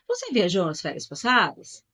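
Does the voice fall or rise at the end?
rise. The voice rises at the end like a question. It asks a question. "Eu só muda a entonação"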